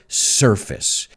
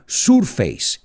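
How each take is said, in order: First: The ending does not sound like face. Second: The ending sounds like the word face. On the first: The speaker calls it right. "Pero no, en este caso es surface" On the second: The speaker calls it wrong. "muchos alumnos lo pronuncian surface. Y lo entiendo, porque face es cara"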